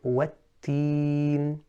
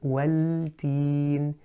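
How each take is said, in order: First: The L is merged into a doubled T. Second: The L is pronounced clearly before the T. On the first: The speaker calls it right. "merge that lam into the ta" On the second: The speaker calls it wrong. "pronounce the lam clearly, then the ta"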